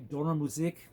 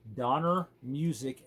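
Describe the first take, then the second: First: The name is pronounced the German way. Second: The name is pronounced the English way. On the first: "then I'm going to say it properly" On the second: "I'm going to say it in English"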